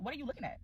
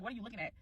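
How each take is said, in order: First: Quietly calm question. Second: Calm, soft question. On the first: Asking the staring girl, calmly and quietly. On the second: Calmly confronting the girl at the pizza line. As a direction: keep it cool and quiet. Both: Retold or imitated. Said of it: "I swear to God, I was so calm".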